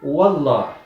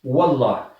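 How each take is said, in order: No difference in how they are said.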